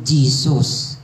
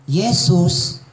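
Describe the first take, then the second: First: The word begins with a J sound. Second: The word begins with a Y sound. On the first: This is the later English pronunciation. "into Jesus" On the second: This is the older Latin pronunciation. "changed from Jesus"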